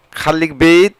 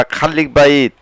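First: বেইত pronounced "beyt", as in "bait"; "ei" variant. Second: বাইত pronounced "ba-eet"; "ai" variant. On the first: Teacher gives Bengali learners Arabic options, বেইত said as "beyt". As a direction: say বেইত with an "ei" vowel. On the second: Teacher gives Bengali learners Arabic options, বাইত said as "ba-eet". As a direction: say বাইত with an open "a-i" glide. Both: Shown as a demonstration.

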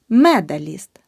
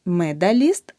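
First: Медаліст with a clear е in the first syllable; correct vowel demo. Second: Медаліст with и in the first syllable; the mistake in медаліст, и for е; wrong vowel demo. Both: Shown as a demonstration. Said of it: "Не".

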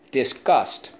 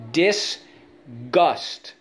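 First: Said in the usual way. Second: "Disgust" split as dis, gust; syllable by syllable. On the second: Shown as a demonstration. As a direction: sound out "Disgust" in two separate beats. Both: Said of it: "Let's go".

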